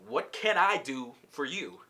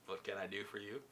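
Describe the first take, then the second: First: Slow question leaning on "can"; measured, full-voice stress on "can"; emphatic question. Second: Low, hushed question with rising end; quiet, intimate low-voiced question; soft repeat. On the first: Retold or imitated. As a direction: draw it out, punching "can", falling at the end. Retold couple's question, first take. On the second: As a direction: say it very softly and low, lifting at the end.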